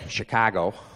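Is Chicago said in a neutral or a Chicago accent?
Chicago. It is said in a local Chicago accent.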